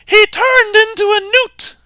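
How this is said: It is said in a high-pitched voice.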